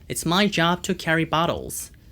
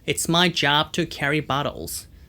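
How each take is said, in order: No difference in how they are said.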